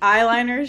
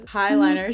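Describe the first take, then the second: First: The word begins with a vowel, no h sound. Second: The word begins with an added h sound.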